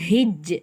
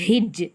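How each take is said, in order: The two takes are said the same way.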